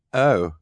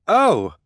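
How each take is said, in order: First: Unexcited, let-down "Oh"; mildly disappointed. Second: "Oh" leaping high and loud; excited. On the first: Narrator contrasting it with the excited way, disappointed. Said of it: "present is somewhat disappointing". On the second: Narrator demonstrating an exclamation point, excited. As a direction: exclaim "Oh!" in delight. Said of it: "in an excited way". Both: Shown as a demonstration.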